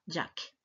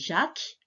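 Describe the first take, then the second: First: The name is said with an American accent. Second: The name is said with a French accent. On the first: "En américain, on dira Jack" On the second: "En français, on dit Jacques"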